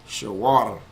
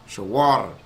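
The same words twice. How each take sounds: No difference in how they are said.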